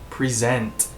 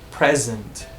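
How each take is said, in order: First: The stress is on the second syllable. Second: The stress is on the first syllable. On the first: It is used as a verb. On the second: It is used as a noun.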